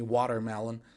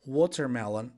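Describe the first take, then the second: First: "watermelon" with an open ah in the first syllable; alternative watermelon. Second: "Watermelon" with a rounded aw in the first syllable; first variant of watermelon. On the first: Teacher giving the other option, "watermelon" with an ah vowel. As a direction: say "watermelon" as wah-ter-melon. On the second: Teacher giving one option, "Watermelon" with an aw vowel. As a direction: say "Watermelon" as waw-ter-melon. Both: Shown as a demonstration. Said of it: "or you can say watermelon".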